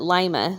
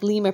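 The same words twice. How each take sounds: First: It is pronounced like the lima bean. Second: It is pronounced like the capital of Peru. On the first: The speaker calls it right. "but Lima, like the bean" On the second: The speaker calls it wrong. "Not Lima, like Lima, Peru"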